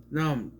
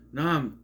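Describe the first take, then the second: No difference in how they are said.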